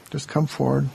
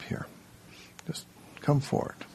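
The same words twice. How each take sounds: First: Voiced call. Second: A soft whispered nudge to step up; whispered coaxing. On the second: Teacher gently urging a shy volunteer, whispered. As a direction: breathe it as a gentle invitation. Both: Real, not acted.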